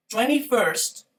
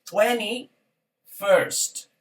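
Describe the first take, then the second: First: "Twenty-first" run together as one word, higher; joined up. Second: "twenty-first" very slowly, long pause between "twenty" and "first"; split into parts. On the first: Teacher repeating for students, "Twenty-first" in one connected go. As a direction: say "Twenty-first" without a gap. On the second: Teacher showing tens then ordinal unit, "twenty... first" slowly separated. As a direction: break "twenty-first" in two separate words. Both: Shown as a demonstration. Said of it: "la unidad es la que va a ser ordinal".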